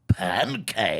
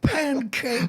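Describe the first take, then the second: First: It is said in a gruff, growling character voice. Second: It is said in a soft, gentle character voice. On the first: "meanwhile, back at it more appropriate" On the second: "I wanted to hear t- Pooh say that"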